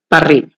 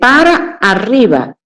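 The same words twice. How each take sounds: First: Para loses a syllable and runs into arriba. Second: Both syllables of para are clearly pronounced. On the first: "la gente suele decir" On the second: "porque dice para arriba"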